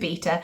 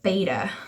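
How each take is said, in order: First: It is said with a non-American pronunciation. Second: It is said with the American pronunciation. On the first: "I'm gonna go with beta" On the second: "in America they pronounce it beta"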